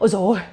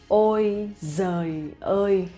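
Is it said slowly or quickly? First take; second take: quickly; slowly. First: It is said quickly and casually. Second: It is said slowly and carefully.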